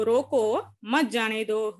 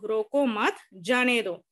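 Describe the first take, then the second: First: रोको held, a pause, then मत जाने दो run together; pause after रोको. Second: रोको मत kept together, a pause, then जाने दो; pause after मत. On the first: Teacher showing pupils how punctuation changes meaning, pause after रोको. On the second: Teacher showing pupils how punctuation changes meaning, pause after मत. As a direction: break after मत, set जाने दो apart. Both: Shown as a demonstration. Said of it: "विराम चिन्ह लगाने के बाद".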